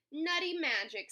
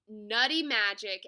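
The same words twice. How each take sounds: First: Raised-pitch mild squeal. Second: Loud, full-voiced cheer; shouting. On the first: Hedgehog racing back to see the nut, squealing. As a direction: squeal it with excitement. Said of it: "squealed Hedgehog". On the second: All the animals celebrating the nuts, shouting. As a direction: shout it like a crowd. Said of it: "everyone shouted". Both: A narrator's reading.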